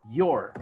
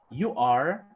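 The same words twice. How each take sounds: First: "your" said as one falling syllable; forma abreviada. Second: Said in the usual way. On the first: Shown as a demonstration. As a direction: contract you are into "your". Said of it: "habla en forma abreviada". ("your" en una sola sílaba) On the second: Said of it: "habla en forma normal".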